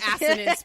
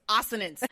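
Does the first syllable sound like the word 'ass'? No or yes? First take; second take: yes; no. First: The first syllable sounds like the word 'ass'. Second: The first syllable avoids the sound of 'ass'. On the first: This is the technically correct pronunciation. "It technically is assonance, but I don't pronounce it like that" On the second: It avoids sounding rude. "We don't say ass"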